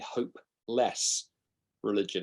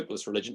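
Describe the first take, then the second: First: There is a deliberate pause inside the phrase. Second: The phrase is said smoothly without a pause. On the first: The religion offers no hope. "There's a deliberate pause between those two" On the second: The religion is worthless or futile. "It's not a hopeless religion"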